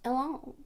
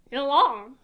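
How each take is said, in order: First: Said in the usual way. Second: Louder, emphatic French-style "Yelan"; French-sounding try. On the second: Shown as a demonstration. Streamer testing if the name sounds French, French-style accent. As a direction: say "Yelan" with a put-on French lilt. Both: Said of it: "It sounds, yeah, it sounds".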